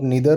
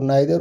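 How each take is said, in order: First: The first vowel sounds like 'ee'. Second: The first vowel sounds like 'eye'. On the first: "अब इसको आप नीदर और इधर भी बोल सकते हैं" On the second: "नाइदर और आइदर"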